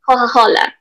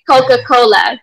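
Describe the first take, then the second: First: The c sounds are breathy, like an h. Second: The c sounds are hard, like a k. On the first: This is how people in Tuscany say it. "In Tuscany, they'll say Coca-Cola. It sounds like an H" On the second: This is how people in Tuscany do not say it. "they don't say Coca-Cola"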